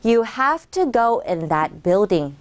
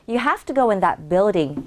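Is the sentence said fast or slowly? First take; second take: slowly; fast. First: The sentence is spoken at a slow pace. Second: The sentence is spoken at a faster pace. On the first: "천천히" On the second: "조금만 더 빨리 발음해 볼까요?"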